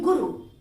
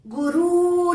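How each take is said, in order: First: "गुरु" with a short final u; correct short vowel. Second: "गुरु" with a loud, dragged-out final oo; wrong long vowel. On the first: Teacher giving the right word, "गुरु" with short u. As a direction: keep "गुरु" brief, both vowels short. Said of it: "हम बोलते हैं गुरु". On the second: Teacher showing what not to say, "गुरु" with long oo. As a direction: stretch the end of "गुरु" into guroooo. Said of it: "गुरु नहीं बोलते हैं". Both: Shown as a demonstration.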